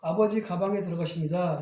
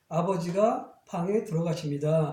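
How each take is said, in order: First: The break falls before the syllable 가. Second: The break falls after the syllable 가. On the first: Father enters a bag. The speaker calls it wrong. "이러면 말이 안 되잖아요" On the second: Father enters a room. The speaker calls it right. "이런 식으로 말을 해야지 문맥이 통하게 돼 있거든요"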